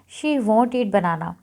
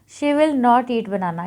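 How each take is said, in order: First: The words will not are contracted to won't. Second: The words will not are said in full.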